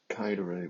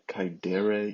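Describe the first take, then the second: First: The stress is on the first syllable. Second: The stress is on the second syllable. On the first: It is a third conjugation verb. The speaker calls it right. "with the accent on the first syllable" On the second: It sounds like a second conjugation verb. The speaker calls it wrong. "do not say ... kaidere. You're making it sound second conjugation"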